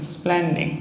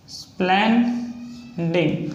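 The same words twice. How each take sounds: First: Said in the usual way. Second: Drawn out slowly. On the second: Shown as a demonstration. Teacher writing स्प्लेंडिंग on the board for students, very slowly. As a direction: say स्प्लेंडिंग very slowly, stretching each syllable. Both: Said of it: "next है splendid".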